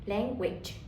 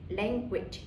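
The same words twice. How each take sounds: The two takes are said the same way.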